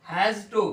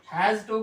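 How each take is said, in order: The two takes are said the same way.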